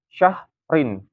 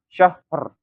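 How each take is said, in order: First: The word ends with a vowel and n. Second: The word ends abruptly on a bare r. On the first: The reader continues without stopping. "kalau misalkan nggak diwakafkan" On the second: The reader stops on this word. "Kalau diwakafkan"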